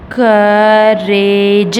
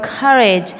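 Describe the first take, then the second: First: "courage" sounded out slowly as cou-ra-ge; syllable by syllable. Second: Said in the usual way. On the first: Shown as a demonstration. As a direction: stretch each part of "courage", louder on the first. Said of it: "It has three syllables". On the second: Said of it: "this is the word courage".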